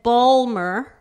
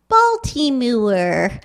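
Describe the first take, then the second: First: The word is clipped down to two syllables. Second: Every syllable is pronounced, with extra vowels added. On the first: It sounds local and unrefined. "the local pronunciation" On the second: It sounds careful and elegant. "now pronouncing this, the name of the city the way my aunts did"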